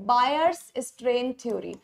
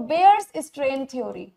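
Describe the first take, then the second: First: "Bayer's" spoken as Baa-yer, open "aa" then "yer", drawn out slowly; Bayer said Baayer. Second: "Bayer's" spoken as Bay-er with a long "ay" and a slow pace; Bayer said Beyer. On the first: Teacher names the scientist, Baa-yer pronunciation, slow. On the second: Teacher picks the Bay-er pronunciation, slow. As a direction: settle on "Bayer's" as Bay-er, unhurried. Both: Shown as a demonstration. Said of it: "तो हम बेयर बोल लेते हैं".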